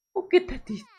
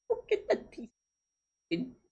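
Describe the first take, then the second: First: Put-on much higher squeaky baby voice; high squeaky baby talk over a sad drawing; squeaky pity. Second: Put-on high, soft and slow, like comforting a baby; quiet baby-talk pity for a crying rat; soft pitying coo. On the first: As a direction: squeak it like a cartoon mouse. Pitying the crying rat drawing. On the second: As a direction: coo softly at the sad little drawing.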